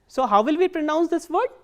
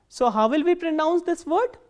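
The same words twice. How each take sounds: The two takes are said the same way.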